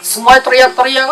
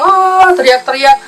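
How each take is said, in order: First: Said in the usual way. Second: High, drawn-out mock cry of panic; mock scream. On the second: Shown as a demonstration. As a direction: act out the screaming on "ah". (teriakan panik pura-pura yang tinggi)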